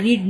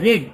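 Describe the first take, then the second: First: রিড said with a long ee vowel, like reed; the wrong reading রিড, long ee as in reed; রিড pronounced reed, shown as the wrong one; wrong form reed. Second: রেড said with a short eh vowel, like red; the right past participle রেড, short eh as in red; রেড pronounced red, past tense of read; correct form red. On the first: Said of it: "এটা রিড নয়". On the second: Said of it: "এটা রেড". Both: Shown as a demonstration.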